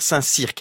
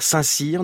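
First: The name ends with a k sound. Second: The name ends without a k sound.

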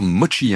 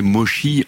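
First: The middle consonant is a 'ch' with a 't'. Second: The middle consonant is a soft 'sh' sound. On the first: The speaker calls it right. "On devrait dire mochi" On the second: The speaker calls it wrong. "on a un peu tort, à prononcer mochi en France"

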